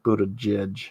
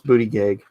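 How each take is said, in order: First: The name ends with a soft 'judge' sound. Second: The name ends with a hard 'gag' sound. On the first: The speaker calls it wrong. "that is not how you pronounce that name" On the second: The speaker calls it right. "it's pronounced Booty Gag"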